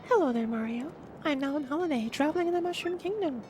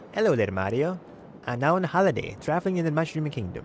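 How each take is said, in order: First: It is read in an imitation of Peach's voice. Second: It is read in the speaker's normal voice.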